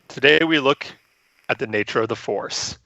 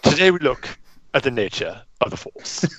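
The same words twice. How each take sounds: First: It is said in his normal accent. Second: It is said in a British accent.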